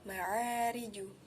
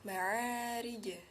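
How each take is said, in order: First: The final j bounces toward a u vowel. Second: The final j bounces without any vowel color. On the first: The speaker calls it wrong. "atau ma'ariju" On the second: The speaker calls it right. "lidah harus segera dijauhkan"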